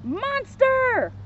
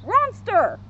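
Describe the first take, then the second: First: High, drawn-out alarmed call; storybook shout, pitched high without full volume; mock shout. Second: High dog-talk shout, R replacing the M; "Ronster" called out high, starting on an R; Scooby-Doo. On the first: Shaggy takes Scooby for a monster, high mock shout. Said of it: "Shaggy shouted". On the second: Scooby takes Shaggy for a monster, high dog-talk shout. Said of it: "he heard Scooby shout". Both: A narrator's reading.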